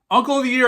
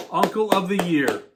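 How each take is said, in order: First: UNCLE punched higher and louder, mocking; sarcastic emphasis. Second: Said in the usual way. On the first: Shown as a demonstration. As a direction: sneer out "Uncle of the year" with a big lift on UNCLE.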